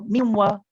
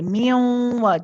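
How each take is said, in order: First: The nasal sound is short. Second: The nasal sound is held long. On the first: The speaker calls it wrong. "we don't just go miwa" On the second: The speaker calls it right. "we hold this and we let it prolong for a little bit"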